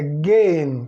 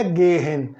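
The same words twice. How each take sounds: First: "gehen" as one stretched "gehn"; silent H. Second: "gehen" as "GE-hen", H clearly aspirated; wrongly sounded H. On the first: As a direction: drop the H in "gehen", long stressed e. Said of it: "Então anula aqui o H". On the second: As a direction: split "gehen" in two with an audible H. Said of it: "Mas não é gehen". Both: Shown as a demonstration.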